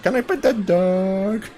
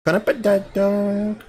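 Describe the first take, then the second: First: Slow Southern drawl, lightly done; thick Southern accent. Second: Slow, higher mock Southern drawl; attempted Southern accent. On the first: Retold or imitated. Telling a friend about the viral bear video, in a drawn-out Southern accent. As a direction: stretch it out like a Southern girl seeing a bear. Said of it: "thickest, like, southern, like, accent". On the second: Repeating the meme line to a friend, in a slow, higher Southern drawl. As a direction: try out a Southern twang on the line. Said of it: "I wish I knew how to do a southern accent".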